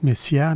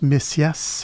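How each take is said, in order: First: The final s of the name is silent. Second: The final s of the name is sounded. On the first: "c'est peut-être Messia" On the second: "Je prononce Messias"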